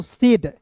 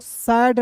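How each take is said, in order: First: "सेड" with a long e vowel; correct reading. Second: SAID misread as "सैड", open vowel; wrong reading. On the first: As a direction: say "सेड", AI sounded as ए. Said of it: "इसे पढ़ेंगे दोस्तों सेड". ("सेड", ए स्वर के साथ सही उच्चारण) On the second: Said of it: "सैड नहीं पढ़ेंगे दोस्तों". ("सैड", खुले ऐ स्वर के साथ गलत उच्चारण) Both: Shown as a demonstration.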